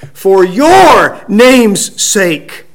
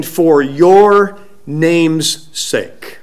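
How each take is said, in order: First: "your" punched high and loud, slowly; stress on YOUR. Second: Slow, even delivery of the phrase; measured prayer quote. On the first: Preacher driving home the righteous one's prayer, "your" strongly stressed. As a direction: hit "your" hard, then step down through the rest. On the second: Preacher quoting Hezekiah's prayer, slow and even. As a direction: draw it out without punching any word. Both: Retold or imitated.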